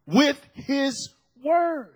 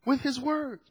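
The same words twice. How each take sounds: First: Slow, weighted "With his words"; emphatic preaching. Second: "With his words" repeated softly; soft echo. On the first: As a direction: stretch out each word of "With his words". Preacher lands phrase, then echoes it. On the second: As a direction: drop the volume on "With his words". Softer echo of the phrase. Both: Real, not acted.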